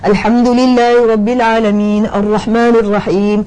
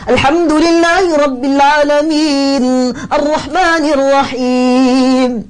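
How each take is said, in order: First: It is read in a subdued, low-energy voice. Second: It is read in a strong, spirited voice. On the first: The speaker calls it wrong. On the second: The speaker calls it right.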